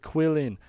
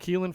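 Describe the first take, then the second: First: The name sounds like 'Quillen', close to 'Krillin'. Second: The name sounds like 'Keelan', with a long 'ee'. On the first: This is how some other people pronounce the name. The speaker calls it wrong. "some people pronounce it Quillen" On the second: This is the pronunciation the speaker will use for now. The speaker calls it right. "I'm going to call him Keelan for now"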